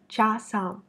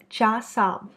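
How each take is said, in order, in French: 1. La première voyelle sonne comme un 'a' plein. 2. La première voyelle sonne comme un 'a' plein.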